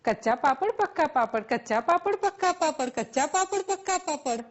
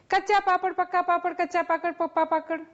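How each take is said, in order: First: Quick run, "Kaccha" and "પક્કા" kept distinct; fast tongue twister. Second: Rattled fast, last "પક્કા" slipping into "પપ્પા"; tongue-twister slip. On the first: Teacher challenging students, rapid "Kaccha papad, પક્કા papad" said correctly. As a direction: rattle off "Kaccha papad, પક્કા papad" without slipping. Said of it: "શું તમે બોલી શકશો". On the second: Teacher trying a film tongue twister, fumbling "પપ્પા" for "પક્કા". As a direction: trip over "પક્કા" as "પપ્પા" at the end. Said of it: "ભૂલ થઈ ને મારી". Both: Shown as a demonstration.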